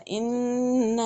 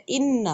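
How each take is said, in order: First: اِنَّ with the vowel drawn out too long; wrongly stretched inna. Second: اِنَّ with short vowel and doubled nun; correct inna. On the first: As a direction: demo the mistake: over-lengthen اِنَّ. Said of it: "کھینچ کر پڑھ دیا تھا". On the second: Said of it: "تو اس کے بجائے پڑھ دیا". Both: Shown as a demonstration.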